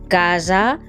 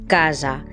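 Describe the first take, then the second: First: The s sound is voiced, with buzzing. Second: The same.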